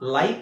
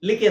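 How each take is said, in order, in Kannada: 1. 'eye' ಸ್ವರ, ಕೊನೆಯ 'e' ಮೌನ. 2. ಸಣ್ಣ 'i', ಕೊನೆಯ 'e' ಉಚ್ಚರಿಸಲಾಗುತ್ತದೆ. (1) "ಸರಿಯಾದ ಉಚ್ಚಾರಣೆ ಏನು? ಲೈಕ್ ಅಂತ" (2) "ಫೋನಿಕ್ಸ್ ಅಲ್ಲಿ ನೀವು ಹೇಳಕ್ ಹೋದ್ರೆ ಲಿಕೆ ಲಿಕೆ ಲಿಕೆ ಅಂತ ಆಗುತ್ತೆ"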